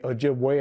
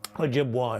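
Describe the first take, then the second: First: The name ends in an 'ay' sound. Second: The name ends in an 'ah' sound. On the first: It names the people. "we say Ojibwe are the people" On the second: It names the submarine. "Ojibwa is the vessel"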